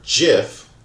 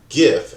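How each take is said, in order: First: The word begins with a soft j sound. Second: The word begins with a hard g sound. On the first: "like giraffe" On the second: "as in gift"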